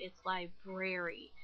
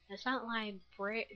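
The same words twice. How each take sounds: First: "library" said slowly and carefully with both r sounds; correct pronunciation. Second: "library" said the wrong way, dropping the middle r; quoting the friend's correction; friend correcting. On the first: Friend pointing out the right pronunciation. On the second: Friend pointing out the mispronunciation. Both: Retold or imitated. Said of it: "she had to point out".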